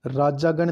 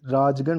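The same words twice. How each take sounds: First: राजागण with long aa after j; wrong form. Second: राजगण with no vowel after j; correct form. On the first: Teacher rejecting the wrong form: राजागण as "raa-jaa-gan". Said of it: "नहीं". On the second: Teacher giving the right form: राजगण as "raaj-gan". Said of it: "होता है". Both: Shown as a demonstration.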